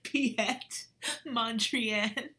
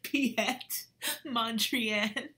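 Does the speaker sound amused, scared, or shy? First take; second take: amused; amused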